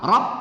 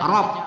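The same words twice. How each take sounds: No difference in how they are said.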